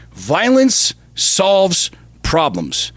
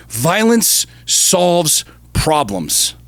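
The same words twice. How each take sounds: First: "Violence solves problems" very slow again, "Violence" hit hardest; repeated slow emphasis. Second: "Violence solves problems" very slow, each word weighed, stress on "Violence"; slow emphatic statement. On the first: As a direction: repeat it slowly like a creed, stressing "Violence". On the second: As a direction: lean hard on "Violence" and drag the whole line out. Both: Real, not acted. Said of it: "y'all can quote me on this".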